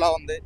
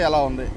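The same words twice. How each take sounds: First: Background wind and traffic noise are filtered out. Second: Background wind and traffic noise are clearly heard. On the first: "మళ్ళీ on చేస్తే ఎలా ఉంది" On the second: "ఆఫ్ చేస్తే ఎలా ఉంది"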